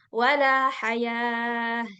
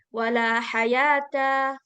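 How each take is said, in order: First: The last word ends with a soft h sound. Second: The last word ends with a full ta syllable. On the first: The speaker calls it right. "dengan menjadikan tak marbuto tersebut sebagai huruf ha" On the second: The speaker calls it wrong. "Kita nggak bacanya dengan wala hayata"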